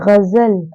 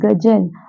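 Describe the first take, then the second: First: It begins with a throaty fricative gh sound. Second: It begins with a plain hard g sound. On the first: The speaker calls it right. "तो इसे पढ़ेंगे गजल" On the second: The speaker calls it wrong. "ना कि गजल"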